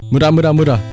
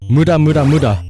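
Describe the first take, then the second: No difference in how they are said.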